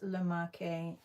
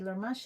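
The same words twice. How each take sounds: First: It is said with an Italian pronunciation. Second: It is said with a French pronunciation. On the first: "in Italian" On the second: "in French"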